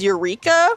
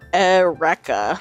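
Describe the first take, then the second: First: It is pronounced as the ordinary English word. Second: It is pronounced as the anime character's name. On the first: This is the everyday word's pronunciation. "the real way to say it is Eureka" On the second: This is the character's name in the show. "in the anime they call her Eureka"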